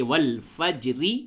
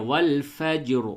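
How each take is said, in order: First: والفجری with a thin ra and added i vowel; والفجری باریک را کے ساتھ. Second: والفجر ending on a full heavy r; heavy ra at a pause. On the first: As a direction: say والفجری, ending on a light thin ri. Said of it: "را کو باریک پڑھنی چاہیے". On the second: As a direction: stop on والفجر with a thick ra. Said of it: "وقف کرتے تو یوں کہتے ہیں". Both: Shown as a demonstration.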